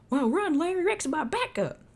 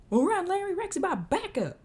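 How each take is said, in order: First: High, loud cowboy shout; Jed voice. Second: Very high, loud cowboy yell; Jed voice retry. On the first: Cowboy Jed shouting to Larry to run from the T-Rex. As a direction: yell a warning like the cowboy. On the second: Cowboy Jed yelling at Larry to run, second try. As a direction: holler the warning, full cowboy. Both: Acted. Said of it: "can't I not do Jed".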